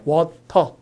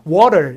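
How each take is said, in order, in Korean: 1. 한국식 억양으로 밋밋하게 발음해요. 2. 't'가 부드럽게 튀는 소리예요. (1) "우리식으로 하면" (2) "미국식으로 하면"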